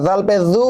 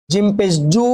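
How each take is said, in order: First: "জু" as a soft dhu, tongue at the teeth. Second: "জু" with a firm j, as in jump; hard j. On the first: Teacher contrasts zal with jim, soft sound. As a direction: soften the "জ" of "জু" into a voiced th. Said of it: "নরম". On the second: Teacher contrasts jim with zal, hard sound. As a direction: press the "জ" of "জু" hard. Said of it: "শক্ত". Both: Shown as a demonstration.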